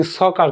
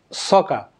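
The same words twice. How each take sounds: First: "সকার" with the final R clearly sounded; the common learner's "সকার", ending in an audible R; pronounced R. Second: "সকা" with the final R all but dropped; barely sounded R. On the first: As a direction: say "সকার" with a full R at the end. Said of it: "কিন্তু আসলে সকার না". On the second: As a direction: end "সকা" on a soft open vowel, no real R. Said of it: "আরটা উচ্চারণ খুব". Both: Shown as a demonstration.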